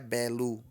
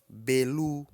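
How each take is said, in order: First: The first vowel is open. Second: The first vowel is closed, on a high pitch. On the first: The speaker calls it wrong. "Isso é uma vogal aberta" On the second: The speaker calls it right. "Belu é um tom alto"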